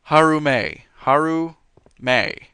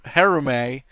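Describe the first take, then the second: First: "Harume" as HAH-roo-may, loud and firm; correct pronunciation. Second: "Harume" with first syllable like "hair"; mispronounced name. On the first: Showing viewers a friend's name, "Harume" firmly said as HAH-roo-may. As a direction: pronounce "Harume" clearly with first syllable "hah". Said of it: "nobody pronounces her name right". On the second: Joking about a friend's name, "Harume" wrongly said as HAIR-oo-may. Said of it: "No, it's not". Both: Shown as a demonstration.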